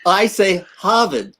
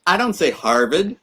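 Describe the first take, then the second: First: "Harvard" said with no r, hahvud, slowly; Harvard without r. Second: "Harvard" with a hard American r, harrvard. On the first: Showing Shaquille how he says "Harvard" without r. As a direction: drop the r in "Harvard", ah sound. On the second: Contrasting the American "Harvard" with r for Shaquille. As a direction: roll out the r in "Harvard". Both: Shown as a demonstration.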